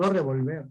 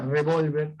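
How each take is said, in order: First: Revolver with the final syllable punched; stress on last syllable. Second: Revólver with a strong second syllable; stress on middle syllable. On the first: Teacher contrasting the wrong word, stress on VER in revolver. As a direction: move the stress to the end of revolver. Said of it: "y no revolver". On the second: Teacher reading what is written, stress on VÓL in Revólver. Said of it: "la tilde está en la O". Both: Shown as a demonstration.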